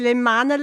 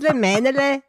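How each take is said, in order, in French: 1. La première voyelle du mot se prononce 'a'. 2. La première voyelle du mot se prononce 'e'. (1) "Dans le Nord, ils disent les, les manele" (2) "dans le Sud, ils disent les menele"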